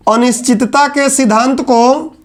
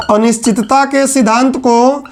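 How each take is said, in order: Both takes have the same delivery.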